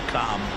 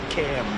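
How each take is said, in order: First: The vowel is long and open, as in calm. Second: The vowel is short and front, as in cat. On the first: The speaker calls it wrong. "We don't like Calm" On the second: The speaker calls it right. "It's Cam, right? Cam, as opposed to Calm"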